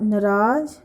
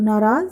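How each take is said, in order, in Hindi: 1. पहला स्वर छोटा है। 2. पहला स्वर लंबा है। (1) "गलत है" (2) "सही है"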